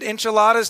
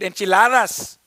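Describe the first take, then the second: First: It is said in a plain English accent. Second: It is said in a French accent. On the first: The speaker calls it wrong. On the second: The speaker calls it right.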